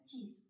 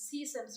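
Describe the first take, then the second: First: சீஸ் with a clear ch start, softly; right way. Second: சீஸ் said with a soft s-like start as the wrong version; the way not to say சீஸ். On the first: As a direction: say சீஸ் with a firm ch. (சரியான உச்சரிப்பு) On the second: (தவறான உச்சரிப்பு) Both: Shown as a demonstration. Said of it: "சொல்ல மாட்டேன்".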